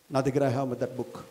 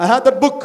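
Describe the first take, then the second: First: Low and soft; hushed first take of the claim; quiet admission. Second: Louder, with book punched; teacher declaring proudly to students; firm declaration. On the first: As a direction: say it softly, almost private. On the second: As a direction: proclaim it to the whole hall. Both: Shown as a demonstration.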